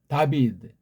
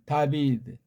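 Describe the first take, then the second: No difference in how they are said.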